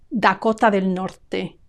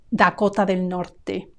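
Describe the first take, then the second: No difference in how they are said.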